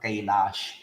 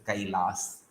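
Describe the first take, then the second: First: The final consonant is a 'sh' sound. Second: The final consonant is an 's' sound. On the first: The speaker calls it wrong. "It is not Kailash" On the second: The speaker calls it right. "it is Kailas"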